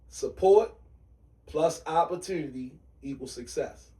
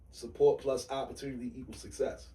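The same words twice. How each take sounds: First: It is said at a slow pace. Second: It is said at a fast pace.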